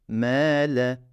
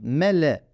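First: The first vowel is drawn out long. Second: The first vowel is short. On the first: "M'yi uzatmak zorundayım" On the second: "mele olması gerekirken"

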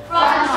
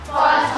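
Both takes have the same delivery.

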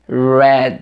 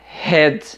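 First: The word begins with an English R sound. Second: The word begins with a breathy H sound. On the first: It names the color red. The speaker calls it right. "Com R, red" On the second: It sounds like the word for head. The speaker calls it wrong. "Tem pessoas que falam red. E red é cabeça, head"

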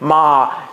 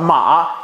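First: It carries the lower yang level tone. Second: It carries the lower yang rising tone. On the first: "阳平" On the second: "阳上"

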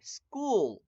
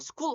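First: The vowel is held slightly longer. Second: The vowel is short and clipped. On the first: The speaker calls it right. "약간 길게 school" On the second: The speaker calls it wrong. "school 하지 말고"

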